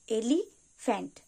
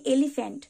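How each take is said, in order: First: "elephant" slowly split in two, pause after "এলি"; broken into syllables. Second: Said in the usual way. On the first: Shown as a demonstration. Teacher showing learners where the word breaks, "elephant" in two slow parts. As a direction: say "elephant" as two separate beats, "এলি", then "ফ্যান্ট". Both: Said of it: "দুবারে ভাঙতে হবে".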